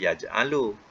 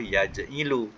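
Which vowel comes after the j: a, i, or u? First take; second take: a; i. First: The vowel after the j is a. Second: The vowel after the j is i. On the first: "Kalau atas" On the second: "kalau bawah"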